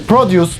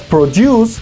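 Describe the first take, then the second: First: The stress is on the first syllable. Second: The stress is on the last syllable. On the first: Fruits and vegetables. "nuestro noun" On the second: To make something. "es el verbo"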